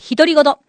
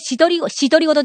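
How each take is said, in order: First: The word begins with an 'h' sound. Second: The word begins with an 'sh' sound. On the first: The speaker calls it right. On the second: The speaker calls it wrong. "姫のしとりごとじゃない"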